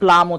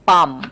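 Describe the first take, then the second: First: The L sound is pronounced in the word. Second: The L sound is left out entirely. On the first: The speaker calls it wrong. "প্লাম মানে এল সহ উচ্চারণ করে ফেলে" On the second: The speaker calls it right. "এল লেটারটা silent থাকে"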